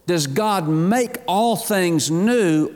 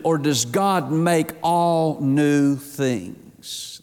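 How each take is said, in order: First: "Does God make all things new", slow and measured, final fall on "new"; slow contrastive question. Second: "or does God make all new things", very slow, weight on "God"; slow contrastive question. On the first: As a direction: spell out "all things new" deliberately, landing on "new". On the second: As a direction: draw out the reversed wording, pressing "God". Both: Shown as a demonstration. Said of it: "here's the way it's poised".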